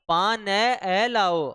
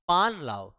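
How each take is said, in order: First: An extra vowel is added after 'paan'. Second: 'Paan' ends cleanly on its final consonant. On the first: The speaker calls it wrong. "ऐसे थोड़ी बोलेंगे" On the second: The speaker calls it right. "ए नहीं बोलेंगे"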